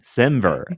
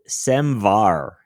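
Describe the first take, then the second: First: The second syllable sounds like 'ver'. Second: The second syllable sounds like 'var'. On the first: The speaker calls it right. "it's semantic versioning, semver" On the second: The speaker calls it wrong. "I've always said semvar"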